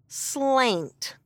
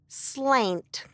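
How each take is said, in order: First: The word ends abruptly on a 't' sound. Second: The word ends abruptly on a 't' sound.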